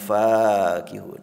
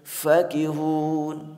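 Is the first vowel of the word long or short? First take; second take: long; short. First: The first vowel is drawn out long. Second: The first vowel is said short. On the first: The enjoyment is boundless. "dibacanya panjang" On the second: The joy of company is more intense. "Bacaan pendek"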